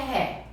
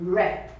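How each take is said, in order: First: It begins with a breathy H-like sound. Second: It begins with an English R sound. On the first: The speaker calls it wrong. "Não é ré. ... Se fosse ré, restaurant começaria com H" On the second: The speaker calls it right. "Mas é com R"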